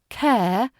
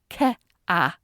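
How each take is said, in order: First: The vowel glides smoothly in one syllable. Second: The vowel splits into two separate syllables.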